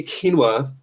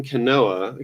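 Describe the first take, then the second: First: "quinoa" fixed to KEEN-wah; "quinoa" with stress on KEEN, ending in wah; self-corrected pronunciation. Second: "quinoa" slipping out as kuh-NO-uh; "quinoa" wrongly stressed on a middle NO; mispronounced quinoa. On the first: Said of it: "I know how to pronounce that". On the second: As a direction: say "quinoa" in three syllables, kuh-NO-uh. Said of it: "I don't know why I'm mispronouncing it". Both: Real, not acted.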